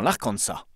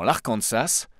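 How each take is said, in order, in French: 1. Le S final est muet. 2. Le S final est prononcé. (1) "où on ne prononce pas le S" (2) "non pas dans l'Arkansas"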